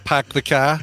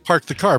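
First: The R in park is dropped. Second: The R in park is pronounced. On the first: "do you say pack?" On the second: "No, you say park the car"

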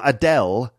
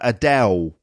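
First: The final L is a clear L sound. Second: The final L sounds like a W. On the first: "So not [name], la la la" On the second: "So it's like a W sound, like a W"

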